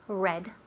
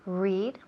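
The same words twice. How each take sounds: First: It sounds just like the color red. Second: It does not sound like the color red. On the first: It refers to the past. "pasado ... se pronuncia igual ... que el color rojo" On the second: It refers to the present.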